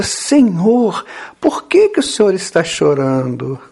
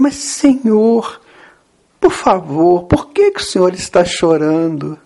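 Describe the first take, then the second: First: Lightly acted, concerned question; Pedro. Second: Insistent, lightly acted plea; Pedro. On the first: Pedro asks weeping Jesus why, lightly voiced concern. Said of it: "Então Pedro pergunta". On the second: Pedro asks Jesus again after no answer, insistent plea. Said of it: "Então Pedro de novo".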